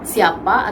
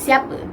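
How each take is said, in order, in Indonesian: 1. Diucapkan dengan lafal bahasa Melayu baku. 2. Diucapkan dengan lafal dialek Terengganu. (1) "bahasa baku" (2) "dialek Terengganu"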